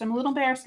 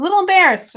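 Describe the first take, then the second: First: Said in the usual way. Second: "A little embarrassed" said higher and louder with a sheepish laugh; "little" lifted high, giggly and loud. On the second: Real, not acted.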